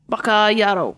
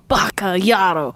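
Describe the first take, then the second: First: It is said in a plain, neutral tone. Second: It is said with a tone of disgust. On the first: The speaker calls it wrong. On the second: The speaker calls it right.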